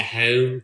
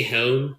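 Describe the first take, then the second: First: Philly-accented HOME with a fronted vowel. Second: Said in the usual way. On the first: Shown as a demonstration. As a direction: say HOME the Philadelphia way. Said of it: "the Philly accent". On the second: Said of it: "when they say home".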